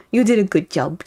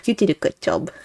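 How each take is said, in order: First: Put-on baby voice. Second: Put-on soft cooing baby talk. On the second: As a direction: coo it like praising a baby. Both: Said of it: "You guys hear my baby voice".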